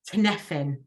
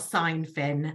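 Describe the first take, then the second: First: The first syllable is not said as 'sign'. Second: The first syllable is said as 'sign'. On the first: The speaker calls it right. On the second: The speaker calls it wrong.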